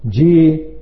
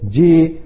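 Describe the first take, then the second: First: It is said as calm, agreeing acknowledgement. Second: It is said as calm, agreeing acknowledgement.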